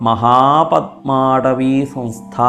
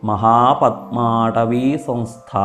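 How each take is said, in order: The two takes are said the same way.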